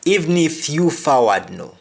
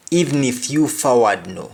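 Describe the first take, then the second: First: Patois, Even stressed, pitched up; Jamaican patois. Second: Patois, Even stressed; Jamaican patois. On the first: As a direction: say Even if you forward no in patois. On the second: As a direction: repeat Even if you forward no. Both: Shown as a demonstration. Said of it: "the example is".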